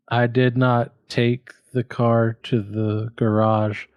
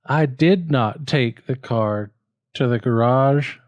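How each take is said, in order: First: "did" stressed, the rest slow. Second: "did" stressed, "garage" lifted at the end; slow, with a push on "garage"; stress on DID again, GARAGE lifted. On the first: Student tests emphasis on the car sentence. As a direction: lean on "did" in "I did not take". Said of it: "should it be". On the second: Student tries another emphasis. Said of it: "or should it be". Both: Shown as a demonstration.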